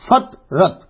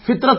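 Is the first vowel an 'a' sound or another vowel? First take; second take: a; other. First: The first vowel is an 'a' sound. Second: The first vowel is not an 'a' sound. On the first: The speaker calls it right. "فا کے اوپر زبر پڑنا ہے" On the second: The speaker calls it wrong. "فطرت نہیں پڑنا"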